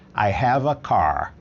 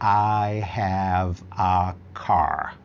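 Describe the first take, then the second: First: "Have" and "a" run together into one sound. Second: Each word is said clearly and separately. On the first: "o nativo emenda e fala have a" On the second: "O mais claro que você pode falar"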